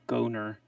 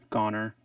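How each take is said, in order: First: The first vowel is long, like 'go'. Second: The first vowel is short, like 'gone'. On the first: "I think of a long vowel sound. So I think go" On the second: "gone, G O N E, is gone. So adding the R"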